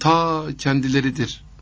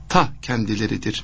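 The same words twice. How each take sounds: First: The word 'ta' is drawn out long. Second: The word 'ta' is short and stressed. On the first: It comes from far away. The speaker calls it wrong. "diye uzatılıyor, o ta hoş olmuyor" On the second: It is right here, not far away. The speaker calls it right. "diyerek vurgu yapmak lazım"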